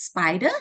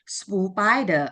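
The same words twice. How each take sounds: First: The word has no extra sound added. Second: The word has an extra sound added. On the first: The speaker calls it right. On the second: The speaker calls it wrong.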